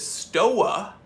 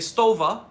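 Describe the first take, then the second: First: It is said with no V sound. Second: It is said with a V sound. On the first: "that's how we pronounce it here in America" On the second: "They say Stova"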